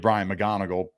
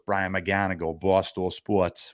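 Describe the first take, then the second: First: It is said in a plain, neutral accent. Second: It is said in a heavy Boston accent.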